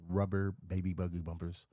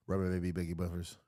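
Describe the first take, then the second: First: Said in the usual way. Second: Put-on rapid "Rubber baby buggy bumpers"; fast tongue twister. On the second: Shown as a demonstration. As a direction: rattle it off quickly. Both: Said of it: "repeating tongue twister".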